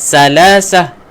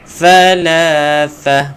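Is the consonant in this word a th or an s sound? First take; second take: s; th. First: It uses s sounds instead of th sounds. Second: It uses th sounds with the tongue tip out. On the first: The speaker calls it wrong. "Jangan salasah" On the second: The speaker calls it right. "keluarkan hujung lidah"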